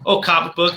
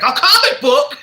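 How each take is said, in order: First: Said in the usual way. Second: High, loud hammed-up exclamation; imitating an over-the-top reaction, pitched way up; mock astonishment. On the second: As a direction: blurt it out in exaggerated disbelief. Retold line, exaggerated second take.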